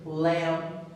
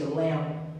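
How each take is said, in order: First: The final p is released with audible air. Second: The final p is held without release. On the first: The speaker calls it wrong. "So we don't say lamp" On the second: The speaker calls it right. "We just say lamp"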